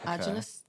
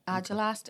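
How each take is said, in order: First: The word is slurred, its sounds run together. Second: The word is said carefully, each sound clear. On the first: The speaker calls it wrong. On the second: The speaker calls it right.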